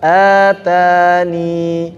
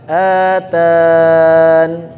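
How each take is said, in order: First: The word ends with a long i vowel. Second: The word ends on a bare n consonant. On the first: The final letter is still counted when stopping. "kalau di atas atani" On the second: The final letter is dropped when stopping. "kalau wakaf yang di bawah atan"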